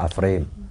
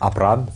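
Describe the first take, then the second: First: The middle consonant is an F sound. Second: The middle consonant is a P sound. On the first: The speaker is from the West. "En Occident, ça sera Afrem" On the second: The speaker is from the East. "on prononce toujours cette lettre-là, P"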